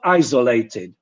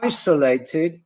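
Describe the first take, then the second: First: ISOLATED with z, EYE-zo-lated; Polish-style Z error. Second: ISOLATED with s, EYE-suh-lated; English S in ISOLATED. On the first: Teacher showing what not to say, wrong z sound. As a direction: mispronounce ISOLATED with a buzzing z. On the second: Teacher modelling English for Polish learners, correct s sound. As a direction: say ISOLATED with a hissing s. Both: Shown as a demonstration. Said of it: "it's not isolated".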